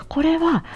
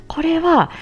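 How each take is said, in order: Both takes have the same delivery.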